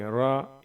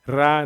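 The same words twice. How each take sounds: First: The r is heavy and full. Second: The r is light and thin. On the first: The speaker calls it right. "थोड़ा सा मोटा पढ़ते हैं, रा इस तरह से पढ़ेंगे" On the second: The speaker calls it wrong. "रा नहीं पढ़ेंगे"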